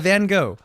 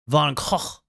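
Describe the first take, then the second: First: It is said the American way, without throaty sounds. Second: It is said the Dutch way, with throaty sounds.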